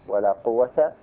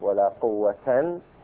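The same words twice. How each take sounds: First: The noun ends in a short -a. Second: The noun ends in nunated -an. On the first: "الفتح" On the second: "والنصب"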